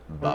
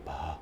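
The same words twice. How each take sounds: First: The voice has a creaky, edgy quality. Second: The voice sounds slack and breathy. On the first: The voice is produced more efficiently. The speaker calls it right. "a little edge on the on the B, like vocal fry down here" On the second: The vocal cords go slack at low pitch. The speaker calls it wrong. "They can actually start to get a little breathy"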